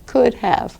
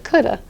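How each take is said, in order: First: The V sound of have is pronounced. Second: The V sound is dropped, giving coulda. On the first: "here is how it is in academic English" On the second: "won't be pronouncing the V. Instead, they'll be saying something like coulda"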